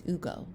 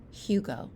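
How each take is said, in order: First: Hugo with a silent H, OO-go; Spanish pronunciation. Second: Hugo with the H sounded, HYOO-go; American pronunciation. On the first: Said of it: "'Cause in Spanish". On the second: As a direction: say Hugo the English way, starting "hyoo". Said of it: "American-style name". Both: Shown as a demonstration.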